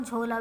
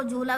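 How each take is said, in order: First: झोला with a long 'oh' after jh; vowel of 'go' in झोला; ओ reading. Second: झूला with a long 'oo' after jh; vowel of 'food' in झूला; ऊ reading. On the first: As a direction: say 'jhoh-laa' for झोला. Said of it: "झोला भी पढ़ सकते हैं". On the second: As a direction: say 'jhoo-laa' for झूला. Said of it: "झूला भी पढ़ सकते हैं". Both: Shown as a demonstration.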